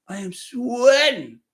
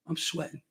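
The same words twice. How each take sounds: First: Slow and stressed, landing on sweating; deliberate, stressed admission; emphatic. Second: Breathless unvoiced sigh, half whispered; sighed aside. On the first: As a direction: say sweating slowly and firmly as an announcement. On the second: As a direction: let it out on a spent sigh. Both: Real, not acted.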